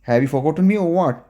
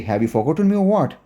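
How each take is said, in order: The two takes are said the same way.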